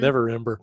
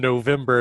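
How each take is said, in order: First: The name is said with four syllables. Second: The name is said with three syllables. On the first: The speaker calls it right. "it's Neverember" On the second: The speaker calls it wrong. "I've been calling him November, and I know it's not November"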